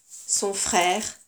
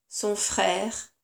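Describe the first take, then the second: Both takes have the same delivery.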